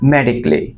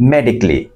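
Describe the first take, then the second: Both takes have the same delivery.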